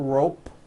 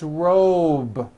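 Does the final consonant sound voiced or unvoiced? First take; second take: unvoiced; voiced. First: The final consonant is an unvoiced P. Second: The final consonant is a voiced B. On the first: The speaker calls it wrong. "with an unvoiced P" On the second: The speaker calls it right. "Also has a voiced B ending"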